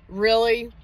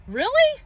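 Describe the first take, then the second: First: Said in the usual way. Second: High, sharp rising really; incredulous. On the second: Real, not acted. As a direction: shoot way up in disbelief. Incredulous at Satan's minions.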